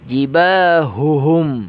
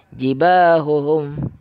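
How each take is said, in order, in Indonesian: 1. Bunyi h itu jelas, dari tenggorokan paling dalam. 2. Bunyi h itu kabur dan tidak jelas. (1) "Seharusnya dijelaskan haknya, yaitu tenggorokan paling dalam" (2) "tidak jelas. Humnya itu tidak jelas"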